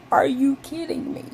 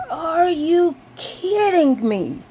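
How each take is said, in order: First: High, laughing repeat of the outrage; disbelieving laugh at the bird; laughing disbelief. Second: High, slow, loud wail of disbelief; half-crying outraged disbelief; disbelieving wail. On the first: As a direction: laugh through it at the absurdity. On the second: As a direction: drag it out like you can't believe it. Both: Retold or imitated. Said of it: "And I was like".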